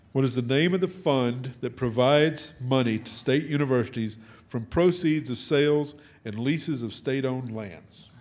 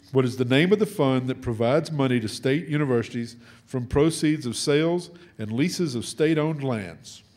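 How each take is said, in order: Both takes have the same delivery.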